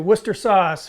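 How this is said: It is said the British way, shortened. "For those of you across the pond, I will say"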